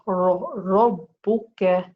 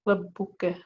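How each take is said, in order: First: The r sound is heavy and full. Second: The r sound is light and thin. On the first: The speaker calls it right. "I'll say Rabbuka" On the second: The speaker calls it wrong. "I will not say Rabbu, Rabbuka, because that's light"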